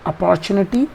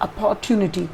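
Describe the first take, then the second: First: British accent, with a ch-like sound in the middle. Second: American accent, with a t sound in the middle. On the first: "British तरीके से pronounce करते हैं" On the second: "American style में pronounce करोगे ... च का sound नहीं सुनाई देगा, ट का सुनाई देगा"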